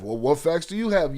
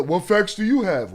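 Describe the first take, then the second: First: Said in the usual way. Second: A lightly put-on sneering viewer voice; mocking viewer quote. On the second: Streamer parroting a viewer to turn it back, light mock voice. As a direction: mimic the viewer's question with scorn. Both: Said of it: "it's funny that".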